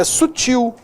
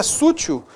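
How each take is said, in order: First: "sutil" stressed on the final TIL, higher; correct stress. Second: "sutil" stressed on the first syllable SU; wrong stress. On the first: Teacher correcting to sutil, stress on TIL. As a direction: land on the end of "sutil". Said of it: "é sutil". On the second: Teacher showing the mistake, sutil stressed on SU. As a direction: say SÚ-til, front-stressed "sutil". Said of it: "não é sutil". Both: Shown as a demonstration.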